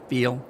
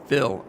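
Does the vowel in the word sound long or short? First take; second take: long; short. First: The vowel is long, as in 'feel'. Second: The vowel is short, as in 'fill'. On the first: The speaker calls it right. "instead of "feel."" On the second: The speaker calls it wrong. "people saying ... "fill" instead of "feel.""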